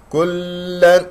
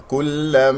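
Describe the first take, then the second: First: Higher "كلا" hanging on the doubled l; wrong held lam. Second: "كلا" with the doubled l released cleanly; correct lam. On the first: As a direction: hold the l of "كلا" too long, as a faulty example. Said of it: "لا تمسك اللام مشددة". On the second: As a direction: recite "كلا" without lingering on the l. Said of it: "خطأ". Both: Shown as a demonstration.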